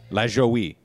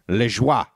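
First: The name is pronounced the American way. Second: The name is pronounced the French way. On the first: "pronounces his last name Lagoey" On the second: "bring back the French pronunciation"

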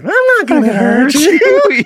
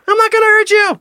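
First: It is said with lively inflection and emphasis. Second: It is said flatly, without much inflection. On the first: The words sound like part of a conversation. "He's using inflections in his voice and emphasis" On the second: The words are just being repeated. "He's not saying like"

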